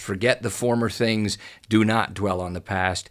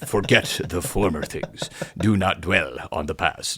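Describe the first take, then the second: First: It is read in a natural speaking voice. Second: It is read in a put-on narrator voice. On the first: "It says" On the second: "in this A I voice. And it sounds like"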